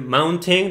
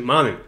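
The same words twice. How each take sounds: First: MOUNTAIN with a clearly sounded t; T pronunciada. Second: MOUNTAIN American-style, the t swallowed; pronunciación gringa. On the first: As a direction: say "mountain" fully, pronouncing the t. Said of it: "En vez de decir mountain". ("mountain" con la t bien marcada) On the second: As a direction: say "mountain" with a glottal stop for the t. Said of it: "así es como los gringos lo dicen". ("mountain" a lo gringo, sin pronunciar la t) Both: Shown as a demonstration.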